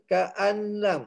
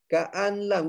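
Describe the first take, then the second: First: The n sound is pronounced before the l. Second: The same.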